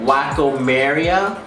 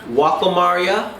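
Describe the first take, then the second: First: The name is said in an Anglicized pronunciation. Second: The name is said in a Japanese-style pronunciation. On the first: This imitates how some other people say it. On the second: This is believed to be the proper pronunciation. "I believe how that's how you say it"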